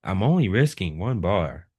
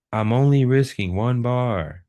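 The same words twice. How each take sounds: First: Said in the usual way. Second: "I'm only risking one bar" pushed out higher and louder; emphatic repeat. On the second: Shown as a demonstration. Trader restating the risk rule to students, "I'm only risking one bar" said emphatically. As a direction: hit "I'm only risking one bar" hard, pitched up with extra force. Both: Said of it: "just to put some emphasis on this".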